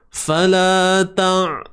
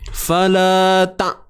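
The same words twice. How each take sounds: First: The final sound is extended and flows on. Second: The final sound is cut off abruptly. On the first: The speaker calls it right. "lanjutkan bunyi dia. biarkan suara eh, suara yang mengalir sedikit" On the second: The speaker calls it wrong. "bunyi dia macam mengejut sangat. Kita break tu"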